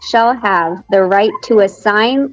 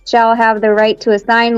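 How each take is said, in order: First: It is read at a slower pace. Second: It is read at a faster pace.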